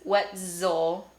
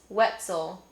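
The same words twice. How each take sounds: First: The middle consonant is a fully voiced z. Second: The middle consonant is a partly devoiced z. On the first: "I knew that I didn't say z" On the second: "probably describes how I say my last name"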